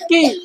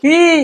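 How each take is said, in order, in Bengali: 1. স্বরটা ছোট আর নরম করে বলা হয়েছে। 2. স্বরটা টেনে দীর্ঘ করে বলা হয়েছে।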